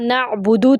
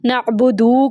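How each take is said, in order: First: The final vowel is short. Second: The final vowel is drawn out long. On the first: The speaker calls it right. "नअबुदु था हर्फ़" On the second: The speaker calls it wrong. "नअबुदू लंबा कर दिया"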